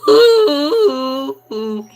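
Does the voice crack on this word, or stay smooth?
cracks. The voice cracks in the middle. The speaker calls it right. "you gotta put the voice cracks in there"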